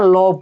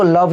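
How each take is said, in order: First: लव said as a short lov, final e silent; correct pronunciation. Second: लव said wrongly, with a full final vowel like love-e; wrong pronunciation. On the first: Teacher gives the right reading: लव, silent final e. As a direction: clip लव short, no vowel at the end. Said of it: "इसको लव नहीं पढ़ते हैं". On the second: Teacher shows the wrong reading: लव with the final sound kept. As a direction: mispronounce लव on purpose, sounding the end. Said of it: "लव पढ़ते हैं". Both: Shown as a demonstration.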